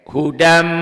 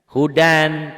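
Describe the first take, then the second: First: The final n merges into an m sound. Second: The word ends with a clear n sound. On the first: This is how it is read before mim. "N-nya melebur masuk ke M" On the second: This is how the word is written. "Tulisannya hudan, ada n-nya"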